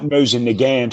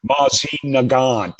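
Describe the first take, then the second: First: MOSIN NAGANT said the English way, MOE-zin; everyday American Mosin Nagant; anglicised pronunciation. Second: MOZZIE NAGANT drawn out, pedantic foreign vowels; slowly over-pronounce Mozzie Nagant like a pedant; exaggerated, slow Mozzie Nagant correction; mock-correct pronunciation. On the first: Retold or imitated. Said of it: "it's not Mosin Nagant". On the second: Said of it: "oh, it's not Mosin Nagant, it's".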